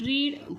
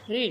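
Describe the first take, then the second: First: The vowel is a long 'ee' sound. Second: The vowel is a short 'e' sound. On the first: "रीड रीड" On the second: "पण आता इथे उच्चार काय होतो, रेड"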